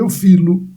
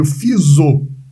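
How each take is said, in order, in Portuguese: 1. Um som de l vem antes do o final. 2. Um som de z vem antes do o final.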